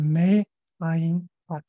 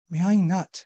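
First: The words are said slowly and kept apart. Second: The words run together in one linked stream. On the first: "慢慢的读就是" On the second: "他连读啊"

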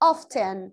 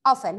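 First: The t sound in the middle is pronounced. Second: The t sound in the middle is silent. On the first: "In American accent often" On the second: "in a British accent often silent T"

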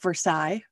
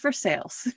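First: The name is pronounced the French way. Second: The name is pronounced the anglicized local way. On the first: This is the original French place name. "It is spelled exactly like Versailles" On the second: This is the local Kentucky place name. "because it is Kentucky, it is pronounced Versailles"

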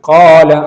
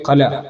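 First: The first vowel is held for two counts. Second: The first vowel is cut short. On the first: The speaker calls it right. "ഇതാണ് മദ് അസ്ലി" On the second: The speaker calls it wrong. "ഇത് രണ്ടും തെറ്റായ രൂപമാണ്"

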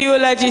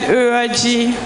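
First: The word is said with an l sound. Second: The word is said with an r sound. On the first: The speaker calls it right. "she couldn't say eulogy" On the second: The speaker calls it wrong. "she has a pronunciation problem. So she couldn't say eulogy, she said Uroji"

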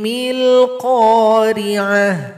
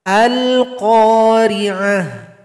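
First: The opening vowel is dropped and joined on. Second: The opening vowel is pronounced at the start. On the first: It follows straight on from the previous phrase. "Jadi hamzanya tidak dibaca karena kita gabung dengan basmalah" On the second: It starts fresh at the beginning. "Tapi kalau di awal baru dibaca"

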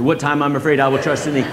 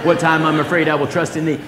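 No difference in how they are said.

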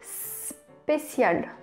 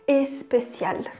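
First: The word begins directly with an S sound. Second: The word begins with an added vowel sound. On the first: The speaker calls it right. "Em francês é assim mesmo, começa só com S" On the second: The speaker calls it wrong. "a gente tem essa tendência de querer falar especial. Mas não tem nenhum E ali"

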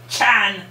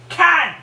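First: The name begins with a ch sound. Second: The name begins with a k sound. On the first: The speaker calls it wrong. "You don't pronounce it Chan" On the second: The speaker calls it right. "You pronounce it Can"

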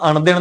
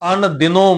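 First: The word ends without an 'o' vowel. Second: The word ends with an 'o' vowel. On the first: The speaker calls it wrong. "ਇਸੇ ਕਰਕੇ ਆਪਾਂ ਅਣ ਦਿਨ ਨਹੀਂ ਪੜ੍ਹਦੇ" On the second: The speaker calls it right. "ਉੱਥੇ ਪੜ੍ਹਦੇ ਹਾਂ ਅਣ ਦਿਨੋਂ"

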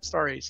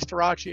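First: The name is pronounced the American way. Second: The name is pronounced the Italian way. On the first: This is the old pronunciation the family used before. The speaker calls it wrong. "you can say that Starace" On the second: This is the family's original pronunciation, now adopted. The speaker calls it right. "So now I say Starace"

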